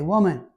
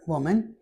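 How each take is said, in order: First: Blunt insulting address. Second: Said in the usual way. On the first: Shown as a demonstration. Teacher demoing how "Woman" would sound rude in American English. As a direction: snap "Woman" at her like a rude summons. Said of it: "but that's considered an insult". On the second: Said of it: "if I were to say it in American English".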